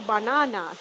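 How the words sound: It is said in a British accent. This is how people back home say it. "like we used to the U K accent, we say banana"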